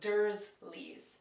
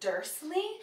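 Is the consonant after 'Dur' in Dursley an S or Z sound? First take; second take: Z sound; S sound. First: The consonant after the first vowel is a Z. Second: The consonant after the first vowel is an S. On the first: The speaker calls it right. "it's actually with a Z" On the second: The speaker calls it wrong. "pronounced with an S"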